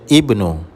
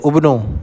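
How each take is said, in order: First: The word begins with an 'i' vowel. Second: The word begins with a 'u' vowel. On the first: The speaker calls it right. "baca ibnu dengan kasrah" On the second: The speaker calls it wrong. "jangan baca ubnu"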